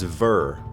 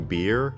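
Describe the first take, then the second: First: The word begins with a V sound. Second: The word begins with a B sound. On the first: The speaker calls it right. "it's ver" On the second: The speaker calls it wrong. "this word isn't actually beer"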